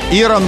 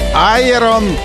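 First: The word begins with an 'ee' sound. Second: The word begins with an 'eye' sound.

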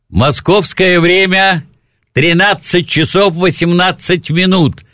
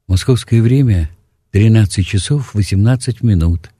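First: It is said in a firmer, harder, less even way. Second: It is said in a softer, calmer, more even way. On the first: This is how Moscow announcers say it. "Москва" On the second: This is how Leningrad announcers say it. "Мягче, интеллигентнее, спокойнее, ровнее"

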